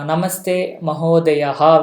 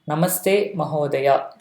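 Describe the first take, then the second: First: The last word ends with an added breathy 'ha'. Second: The last word ends plainly on a vowel. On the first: The speaker calls it wrong. "there will be Visarga, we'll add at the end" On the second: The speaker calls it right. "that is the right form"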